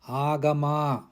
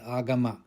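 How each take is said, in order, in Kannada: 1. ಪದದಲ್ಲಿ ಒಂದು ಸ್ವರವನ್ನು ದೀರ್ಘವಾಗಿ ಹಿಡಿಯಲಾಗುತ್ತದೆ. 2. ಪದದಲ್ಲಿರುವ ಎಲ್ಲಾ ಸ್ವರಗಳು ಹ್ರಸ್ವವಾಗಿವೆ. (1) "Pay attention to pronounced dirgha" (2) "not agama"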